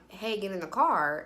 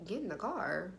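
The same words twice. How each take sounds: First: Said in the usual way. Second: Much softer, questioning repeat; wary echo. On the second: Retold or imitated. Woman answering his request to get in, wary. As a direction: echo GET IN THE CAR back quietly as a question.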